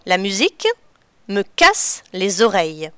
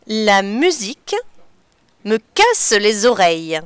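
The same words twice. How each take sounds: The two takes are said the same way.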